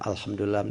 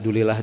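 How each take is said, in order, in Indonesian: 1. Frasa itu diucapkan lengkap, setiap suku katanya. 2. Frasa itu diucapkan singkat dan cepat. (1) "apa salahnya kalau alhamdulillah" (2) "bukan alhamdulillah"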